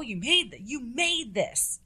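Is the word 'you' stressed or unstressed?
unstressed. The word 'you' is not stressed. The speaker is praising the food. The speaker calls it right. "it's not just like, oh, you made this"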